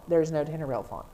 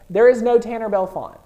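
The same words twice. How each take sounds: First: Said in the usual way. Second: Loud, high announcement; over-excited. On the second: Real, not acted. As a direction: call it out loudly, carried away with excitement. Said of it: "I'm getting too excited".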